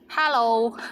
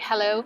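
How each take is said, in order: First: It is said with a Cantonese accent. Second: It is said with an English accent.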